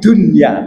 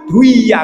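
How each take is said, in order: First: The n sound is pronounced clearly. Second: The n sound merges into the following sound. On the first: The speaker calls it right. "dibaca idhar" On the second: The speaker calls it wrong. "tapi nggak dibaca fit duya, nggak begitu"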